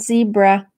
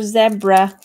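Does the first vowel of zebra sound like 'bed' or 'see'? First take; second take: see; bed. First: The first vowel sounds like 'see'. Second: The first vowel sounds like 'bed'.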